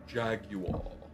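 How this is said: It is said in a British accent. "the Brits with a Jaguar"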